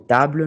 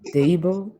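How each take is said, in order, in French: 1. Il se prononce à la française. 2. Il se prononce à l'anglaise. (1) "à la place de table" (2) "nous dirons table"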